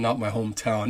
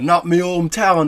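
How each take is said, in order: First: Said in the usual way. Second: Higher, louder mock Jamaican accent; bad Jamaican accent. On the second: Shown as a demonstration. Half-Jamaican host jokes about his hometown, bad Jamaican accent. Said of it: "my bad accent".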